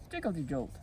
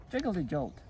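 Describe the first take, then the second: No difference in how they are said.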